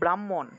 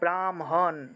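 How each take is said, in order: First: The h is said before the m. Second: The m is said before the h. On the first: This is the everyday Bengali way. "আমরা বাংলায় বললে" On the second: This is the Sanskrit way. "কিন্তু সংস্কৃত উচ্চারণ করলে ... প্রথমে ম উচ্চারণ হবে, তারপরে হ"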